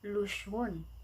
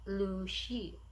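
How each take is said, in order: First: The name is read as spelled in English. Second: The name is said with Chinese sounds. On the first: "literally we read it Luxun" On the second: "in Chinese, uh, the pronunciation is"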